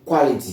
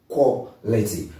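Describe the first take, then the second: First: The first syllable is said like qua. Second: The first syllable is said like quo. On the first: The speaker calls it wrong. "don't say qua" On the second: The speaker calls it right. "It's supposed to be quo"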